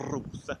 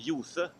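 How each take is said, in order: First: The word begins with a rolled r. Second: The word begins with a y sound. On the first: It is the proper East Norwegian pronunciation. The speaker calls it right. "The proper East Norwegian way of saying it is R, Rose, just like a helicopter" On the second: It sounds like a small child speaking. The speaker calls it wrong. "it's what small kids say"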